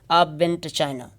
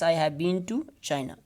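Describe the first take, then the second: First: 'Have' is reduced and contracted, without emphasis. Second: 'Have been' is said in full with emphasis. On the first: No word in the sentence is singled out. "if you don't want to uh, emphasize a single word in the sentence, so so you are going to again use weak form" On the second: The experience of having been there is emphasized. "as you want to uh, this emphasize these two words"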